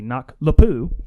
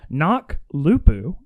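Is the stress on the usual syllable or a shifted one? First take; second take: shifted; usual. First: The stress is moved onto an unexpected syllable. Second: The stress falls where it normally would. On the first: "put more em- emphasis on the wrong syllable" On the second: "I think that's how you pronounced it"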